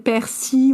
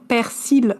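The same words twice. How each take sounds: First: The final L sound is left silent. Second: The final L sound is pronounced. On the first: The final letter is treated as mute. "comment je pourrais deviner que c'est persil" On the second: The speaker reads the word from its spelling. "il y a un L à la fin de persil, alors je vais dire persil"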